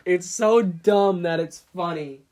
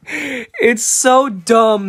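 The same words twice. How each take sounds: First: Said in the usual way. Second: Loud, slow, drawn-out amazement; amused exclamation. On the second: Real, not acted. Reacting to a silly nerd emoji, loud amused exclamation. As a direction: exclaim it loudly, stretching the words. Amused outburst, then repeated more calmly.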